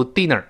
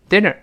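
First: "dinner" with a tense "ee" in the first syllable; wrong DINNER. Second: "dinner" with a short, relaxed first vowel, close to "eh"; open, short i in "dinner"; correct DINNER. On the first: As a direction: show the mistaken "deenner". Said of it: "不要读dinner". (dinner误读成“低”的i音) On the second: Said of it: "注意不要读dinner". (dinner第一个元音短而松) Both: Shown as a demonstration.

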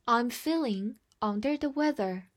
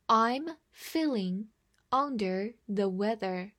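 First: Said in the usual way. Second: Slow, measured model reading. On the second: Shown as a demonstration. Teacher reads slowly so the class can follow. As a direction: read it slowly, word by word. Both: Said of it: "慢读一遍".

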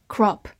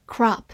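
First: "Crop" British-style, short rounded vowel; British accent. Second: American "crop" with an open ah; American accent. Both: Shown as a demonstration. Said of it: "美式发音".

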